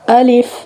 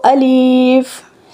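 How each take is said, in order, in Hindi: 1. दोनों स्वर छोटे हैं। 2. दूसरा स्वर लंबा खींचा जाता है। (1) "अलिफ अलिफ" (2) "इसको अलीफ नहीं पढ़ना"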